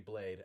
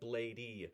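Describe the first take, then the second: First: The name is said with one syllable. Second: The name is said with two syllables. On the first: The speaker calls it right. "he intends for it to be Blade" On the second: The speaker calls it wrong. "Nardwar was technically incorrect when he said Blade-y"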